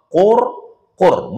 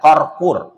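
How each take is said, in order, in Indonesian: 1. Kedua suku kata memakai vokal u. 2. Suku kata pertama memakai vokal a. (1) "dua qafnya berbaris dhammah" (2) "bukan qarqur"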